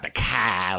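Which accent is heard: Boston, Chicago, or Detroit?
Boston. It is said in a Boston accent.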